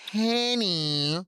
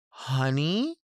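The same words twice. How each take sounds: First: "henny" with an eh vowel, higher and held; drawn-out, high "henny"; henny variant. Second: "honey" with a plain uh vowel, rising; uh-vowel "honey", lifting at the end; standard honey. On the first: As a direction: pitch "henny" up with an eh sound. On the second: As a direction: say "honey" neutrally, as an option in a list. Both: Shown as a demonstration. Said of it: "they're all so different".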